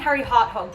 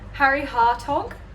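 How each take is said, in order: First: An h sound follows the t in the second word. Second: No h sound follows the t in the second word. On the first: The speaker calls it wrong. "I was saying Harry Harthog" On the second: The speaker calls it right. "There's no second H"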